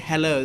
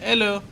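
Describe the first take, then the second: First: The word begins with an h sound. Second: The word begins without an h sound. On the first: "They don't say hello" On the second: "In French, you don't pronounce H"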